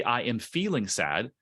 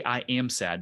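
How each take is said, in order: First: Slow, with "feeling" lifted and stretched; stress on feeling. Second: Said in the usual way. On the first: Shown as a demonstration. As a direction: lean on "feeling", let it rise. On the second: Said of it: "don't say".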